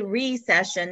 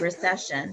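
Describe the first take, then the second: First: The stress is on the first syllable. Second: The stress is on the second syllable. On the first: The speaker calls it right. "you have to say recession" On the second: The speaker calls it wrong. "not recession"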